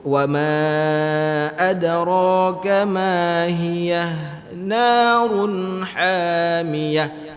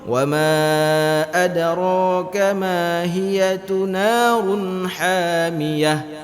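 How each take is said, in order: First: The h after hiya stays silent before narun. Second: A vowel follows the h after hiya. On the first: The speaker calls it right. "tetap ma, mati" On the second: The speaker calls it wrong. "itu salah"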